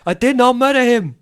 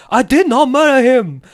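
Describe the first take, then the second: First: Put-on weird accent, higher and pushed; hammy robot-movie accent on murder; iRobot impression. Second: Put-on loud, higher odd accent, DID punched; weird accent impression. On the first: GM quoting his favorite iRobot line, odd accent. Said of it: "my best bit from iRobot". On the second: Quoting the interrogated robot, slamming the table in weird accent. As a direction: slam the line in a strange accent. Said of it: "the weirdest accent ever".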